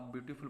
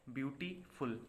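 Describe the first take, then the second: First: Said in the usual way. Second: beautiful broken as "beauty", pause, "फुल"; teacher's demo of beautiful with a gap before फुल; split in two parts. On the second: Shown as a demonstration. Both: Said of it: "दो बार में इसको बोला".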